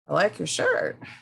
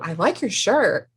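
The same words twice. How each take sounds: First: It is said in a mocking, sarcastic tone. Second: It is said in a warm, sincere tone. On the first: The speaker does not really like the shirt. "I don't think she likes my shirt" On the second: The compliment is genuine. "she likes my shirt"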